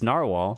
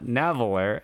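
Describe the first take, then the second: First: The name is pronounced like narwhal. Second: The name is pronounced like naveler. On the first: The speaker calls it right. "It's narwhal" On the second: The speaker calls it wrong. "It's not Naveler, as much as I want to say it"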